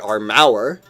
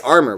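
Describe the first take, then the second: First: It is said with an extra U vowel. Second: It is said without an extra U vowel. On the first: "We don't say armour" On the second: "We say armor"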